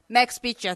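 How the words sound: It is said with an American-like pronunciation and intonation. This is how older people who worked near the base say it. "アメリカに通用するイントネーションで"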